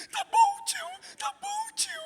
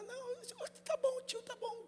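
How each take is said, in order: First: Put-on very high, wailing child's sob; crying child. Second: Put-on very high, soft child's voice; little girl. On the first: Pastor imitating the crying boy answering his uncle, very high and sobbing. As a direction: whimper it like a hurt little kid. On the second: Pastor imitating a child answering the uncle, high and soft. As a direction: brush the grown-up off sweetly like a small kid.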